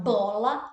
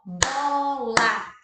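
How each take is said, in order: First: Said in the usual way. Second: "bola" in two long, loud beats, bo, la; "bola" stretched and split into bo... la; syllable by syllable. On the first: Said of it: "ela é de sílaba". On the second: Shown as a demonstration. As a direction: chant "bola" slowly, one syllable per clap. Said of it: "duas sílabas".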